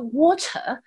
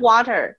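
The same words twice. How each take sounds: First: It is said in a British accent. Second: It is said in an American accent.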